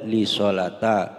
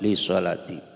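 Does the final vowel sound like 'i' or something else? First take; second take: something else; i. First: The word does not end in an 'i' vowel. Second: The word ends in an 'i' vowel. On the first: The speaker calls it wrong. "Tidak boleh ... salah" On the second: The speaker calls it right. "harus kasroh"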